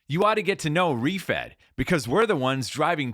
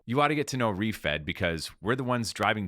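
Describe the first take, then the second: First: It is said loudly, like an energetic announcement. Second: It is said softly, like casual conversation. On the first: The speaker calls it wrong. "perform it and shout it like" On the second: The speaker calls it right. "You're just having a conversation as you"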